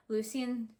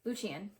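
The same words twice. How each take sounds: First: Lucien said "LOO-see-un". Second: Lucien said "LOO-shun". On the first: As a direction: keep a plain S sound in Lucien. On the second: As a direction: soften the middle of Lucien to SH. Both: Real, not acted. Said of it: "I'm so sorry, that's gonna be really annoying".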